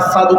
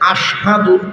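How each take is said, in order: First: The word begins with an 's' sound. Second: The word begins with a 'sh' sound. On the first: The speaker calls it wrong. "শিনের ক্ষেত্রে সিন উচ্চারণ করতেন, আসাদু কইতেন" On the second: The speaker calls it right. "শিন উচ্চারণ হইত না"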